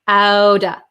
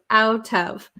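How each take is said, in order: First: The words blend into one, with a D-like T. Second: Both words are said fully and separately. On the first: "So it becomes outa" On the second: "so we have out of"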